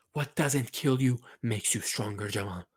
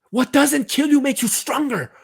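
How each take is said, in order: First: Soft, intimate pep talk; dropped-down, earnest murmur; hushed encouragement. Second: Very high, loud rallying cry; impassioned, high-pitched yell; rousing shout. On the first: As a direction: say it quietly, just to the player. Same line repeated as hushed plea. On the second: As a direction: shout it to fire up the player. Fired-up pep talk to player. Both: Acted.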